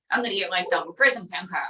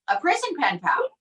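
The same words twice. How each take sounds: First: Lightly lowered Trump voice, deadpan; a hint of a boastful Trump; Trump puppet voice. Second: High, rising disbelief; incredulous echo. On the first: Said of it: "what are you gonna do?". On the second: Real, not acted. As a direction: repeat it back, amazed. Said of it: "echoes in disbelief".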